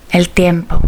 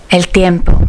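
No difference in how they are said.

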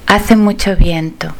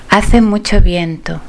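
The two takes are said the same way.

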